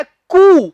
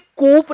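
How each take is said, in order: First: कू loud and drawn out, silent P; correct pronunciation. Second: कूप with the P sounded, KOOP; mistaken pronunciation. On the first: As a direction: end कू on a long open OO. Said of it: "पी नहीं बोलेंगे". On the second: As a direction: close कूप on a P. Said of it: "कूप नहीं कहना". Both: Shown as a demonstration.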